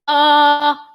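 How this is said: The vowel starts with a hard glottal catch.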